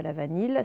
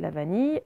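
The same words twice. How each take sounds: First: "vanille" misread as va-neel, hard L ending; "vanille" ending on a clear L sound; wrong reading with L. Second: "vanille" said va-neey, no L heard; "vanille" with double L as y; correct ye sound. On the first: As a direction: say "vanille" to rhyme with "ville". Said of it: "c'est pas la vanille". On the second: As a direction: end "vanille" on a y glide. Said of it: "c'est bien le son ye". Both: Shown as a demonstration.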